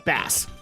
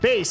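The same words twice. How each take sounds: First: The vowel rhymes with 'mass', as the fish. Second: The vowel rhymes with 'base', as in music. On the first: The word names the fish. The speaker calls it wrong. "they were mispronouncing it" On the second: The word names the musical low range. The speaker calls it right. "the guy actually did explain it's like bass, like the speaker kind of thing"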